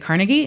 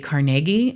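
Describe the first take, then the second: First: The name is said the New York way. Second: The name is said the Pittsburgh way. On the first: This is how outsiders say the name. "places in New York and they'd be like Carnegie" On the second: This is the way the name's owner said it. "in Pittsburgh we say Carnegie"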